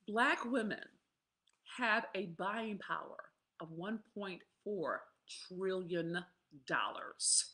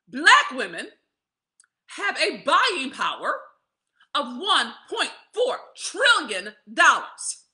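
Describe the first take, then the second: First: The sentence is said at normal volume. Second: The sentence is said noticeably louder.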